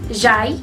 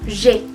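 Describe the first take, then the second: First: The vowel is sounded as 'a' followed by 'i'. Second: The vowel is sounded as a single 'e'. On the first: The speaker calls it wrong. "yo no había pronunciado j'aille" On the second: The speaker calls it right. "la A y la I se pronuncian como una E"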